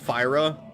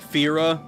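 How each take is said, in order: First: The first syllable sounds like 'fie'. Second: The first syllable sounds like 'fee'. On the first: "Fyra is correct based on the Japanese pronunciation" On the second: "Fira is based on how English vowels interact with each other"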